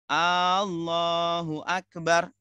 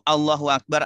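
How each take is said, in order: First: The opening A vowel is held long. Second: No vowel is held extra long. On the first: It asks whether Allah is the greatest. The speaker calls it wrong. "Kalau sumpama kita panjangkan A-nya" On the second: Allah is the greatest. The speaker calls it right. "artinya Allah Maha Besar"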